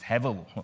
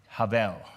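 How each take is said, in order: First: The first vowel sounds like 'eh'. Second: The first vowel sounds like 'ah'. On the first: "some people pronounce it as Hevel" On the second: "I call it Havel"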